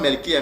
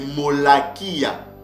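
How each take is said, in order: First: The name starts with 'mel' and has fewer syllables. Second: The name starts with 'mo-la' and has more syllables. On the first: This is how another tradition pronounces it. The speaker calls it wrong. "c'est pas Melkia, comme le prononce ici Edom, en yiddish" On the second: This is the true original name. The speaker calls it right. "mais c'est Molakia"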